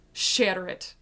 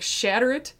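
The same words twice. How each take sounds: First: Said in the usual way. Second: Shatter it called out high and loud; a rising, forceful cry; fervent command. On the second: Retold or imitated. Woman in prayer room commanding the idol shattered, loud and fervent.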